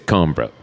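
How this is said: It ends in a clipped m-b-r cluster. This is how it is said in France. "the M and the B and the R are pronounced, but kind of clipped"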